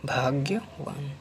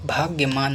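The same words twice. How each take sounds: First: भाग्यवान slowly, ending "vaan"; correct V form. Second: भाग्यमान with M, "bhagya-maan"; wrong M form. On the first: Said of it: "होता क्या है?". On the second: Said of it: "भाग्यमान नहीं होता है". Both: Shown as a demonstration.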